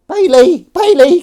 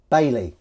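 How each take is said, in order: First: Very high, loud pet call; calling a cat. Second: Said in the usual way. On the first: Pretend. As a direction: holler the name in a falsetto. Calls the cat by name.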